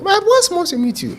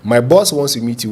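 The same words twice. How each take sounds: First: Put-on tiny, much higher voice of a young lady. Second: Said in the usual way. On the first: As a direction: squeeze it into a tiny girlish voice. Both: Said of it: "with a very tiny voice".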